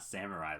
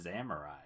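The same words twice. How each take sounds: First: The word begins with an S sound. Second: The word begins with a Z sound. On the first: The speaker calls it wrong. "It's not Samurai like I thought it was" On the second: The speaker calls it right. "with a Z"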